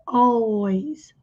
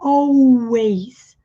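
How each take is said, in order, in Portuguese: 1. O L é pronunciado como um L claro. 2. O L soa como uma vogal, não é claro. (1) "Som de, letra L, som de L" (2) "não é always"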